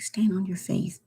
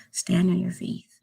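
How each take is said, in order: First: Whisper. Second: Said in the usual way. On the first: Real, not acted. Whispering her faith advice to subscribers. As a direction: repeat it as an unvoiced whisper.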